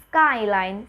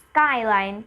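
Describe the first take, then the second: Both takes have the same delivery.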